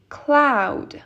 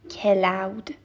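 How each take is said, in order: First: The first two consonants are joined with no vowel. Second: A vowel is inserted between the first two consonants. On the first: The speaker calls it right. "هیچ vowelی بینشون نیست" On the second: The speaker calls it wrong. "I don't say cloud"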